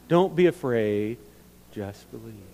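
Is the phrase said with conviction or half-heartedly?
half-hearted. It is said plainly, without much conviction. The speaker calls it wrong. "I don't know that we really say it like we mean it"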